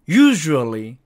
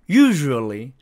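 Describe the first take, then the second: No difference in how they are said.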